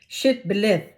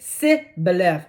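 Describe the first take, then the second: First: The word begins with a 'sh' sound. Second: The word begins with a plain 's' sound. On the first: The speaker calls it right. "They put a S H" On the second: The speaker calls it wrong. "they said si"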